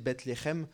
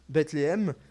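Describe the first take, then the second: First: The name has a Hebrew-style pronunciation. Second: The name has a French-style pronunciation. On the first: The speaker calls it right. "il faudrait prononcer Bethléem" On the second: The speaker calls it wrong. "c'est pas très bien prononcé"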